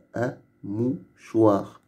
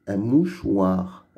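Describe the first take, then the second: First: "Un mouchoir" slowly, with pauses: un, mou, choir; syllabes détachées. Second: Said in the usual way. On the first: Shown as a demonstration. Teacher splits the word into syllables. (« mouchoir » dit lentement, syllabe par syllabe : mou, choir)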